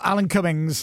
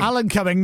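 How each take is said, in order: First: The surname ends with an s sound. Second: The surname ends without an s sound. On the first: The speaker calls it wrong. "not Alan Cummings" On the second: The speaker calls it right. "No S"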